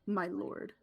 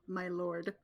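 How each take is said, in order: First: It is said with a deep, threatening tone. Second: It is said in a plain, neutral tone.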